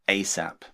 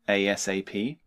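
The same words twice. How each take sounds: First: It is said as a single word, ay-sap. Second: Each letter is said separately, A-S-A-P. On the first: "or you can just say it as one word" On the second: "You can sound out each letter like this"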